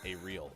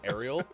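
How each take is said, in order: First: It is said as two words, 'a real'. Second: It is said as one word, like 'Ariel'. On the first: "I like to pronounce it now as a real" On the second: "I believe it may be pronounced Ariel, but not the same as Ariel's"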